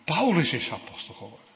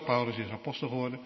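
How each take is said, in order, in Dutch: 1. De naam aan het begin krijgt een sterke nadruk. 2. De zin wordt gewoon uitgesproken, zonder speciale nadruk. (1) "Of all people, Paulus" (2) "Ik zeg het zo"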